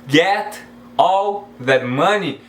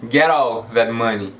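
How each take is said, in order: First: The T in 'get' sounds like a T. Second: The T in 'get' sounds like an R. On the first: "eu posso pronunciar com som de, de T normalmente?" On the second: "Então você vai pronunciar com som de R"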